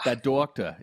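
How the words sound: It is said in a Boston accent.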